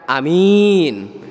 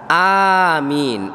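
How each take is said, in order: First: Only the second vowel is long. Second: Both vowels are long. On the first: It means trustworthy. The speaker calls it wrong. "A-nya pendek, min-nya panjang" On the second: It means answer my prayer. The speaker calls it right. "A-nya panjang, min-nya panjang"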